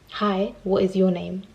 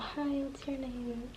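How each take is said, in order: First: It is said loudly and firmly. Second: It is said quietly and mumbled. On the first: The speaker sounds confident. The speaker calls it right. "say it with chest. Say it like you meant what you said" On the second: The speaker sounds shy. The speaker calls it wrong.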